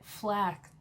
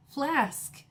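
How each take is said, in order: First: "Flax" said without the k sound; wrong try: Flax. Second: "flask" said slowly with a clear sk ending; careful flask. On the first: Vlogger fumbling the word flask, saying Flax. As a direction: stumble into "Flax", dropping the k. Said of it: "I can't say it". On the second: Vlogger getting flask right, careful and higher. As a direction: land the final sk of "flask" cleanly. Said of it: "I hope I'm saying it right". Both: Shown as a demonstration.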